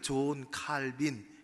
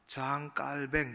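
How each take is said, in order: First: The name is said with an English pronunciation. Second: The name is said with a French pronunciation. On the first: "영어식 발음이죠" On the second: "그 나라 말을 이제는 따라서 프랑스 사람이었으니까"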